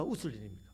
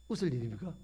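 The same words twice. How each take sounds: First: Said in the usual way. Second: 웃을 일입니까 asked with a rising lilt; 웃을 일입니까 said lighter, ending in a rise; questioning rise. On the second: Shown as a demonstration. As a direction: toss the question up at the end.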